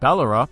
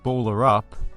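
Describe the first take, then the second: First: It is said like an Australian place name. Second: It is said like two English words. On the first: It suggests a rural Australian town. "it sounds like a small town in rural Australia" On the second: It suggests a basketball phrase. "it sounds like some sort of basketball related euphemism"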